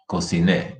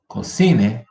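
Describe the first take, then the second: First: Cociné stressed on final NÉ; stress on last syllable. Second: Cocine punched on CI; stress on middle syllable. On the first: Teacher drilling once more, final stress on cociné. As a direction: lean on the end of cociné. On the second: Teacher drilling once more, middle stress on cocine. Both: Shown as a demonstration. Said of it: "here's another one".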